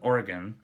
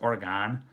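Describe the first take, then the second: First: Oregon is said with the local pronunciation. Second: Oregon is said with a Midwestern pronunciation. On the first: The speaker calls it right. "No, from Portland" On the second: The speaker calls it wrong. "there just came out my Midwestern Tourette's"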